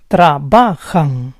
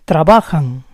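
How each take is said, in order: First: Trabajan split as tra-BA-jan; syllable by syllable. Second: Said in the usual way. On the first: Shown as a demonstration. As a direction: say Trabajan in parts, stressing BA. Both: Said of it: "stress is on the second to last syllable".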